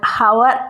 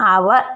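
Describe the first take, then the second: First: The word begins with an h sound. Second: The word begins with a vowel sound. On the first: The speaker calls it wrong. "ഒരിക്കലും നമ്മൾ ഹവർ എന്ന് പറയില്ല" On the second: The speaker calls it right. "അവർ എന്നാണ് പറയുക"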